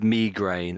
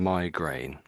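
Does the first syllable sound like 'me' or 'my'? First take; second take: me; my. First: The first syllable sounds like 'me'. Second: The first syllable sounds like 'my'. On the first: "So me and my at the beginning" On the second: "So me and my at the beginning"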